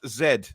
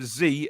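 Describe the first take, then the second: First: The letter is said the British way. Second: The letter is said the American way. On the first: The speaker calls it right. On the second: The speaker calls it wrong.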